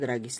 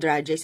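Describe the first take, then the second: First: The word is said in a plain, everyday way. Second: The word is said in a fancy, affected way. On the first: The speaker is being down-to-earth. "dragis lang yun" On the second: The speaker is being pretentious. "ang arte-arte naman ito"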